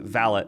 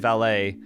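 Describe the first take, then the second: First: The word is said with a British pronunciation. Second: The word is said with an American pronunciation. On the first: "in the U K they pronounce it valet" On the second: "in America we say valet"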